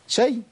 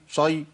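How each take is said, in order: First: The syllable sounds light and thin. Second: The syllable sounds heavy and dark. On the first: The speaker calls it right. "الياء مرققه" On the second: The speaker calls it wrong. "تفخيم الياء"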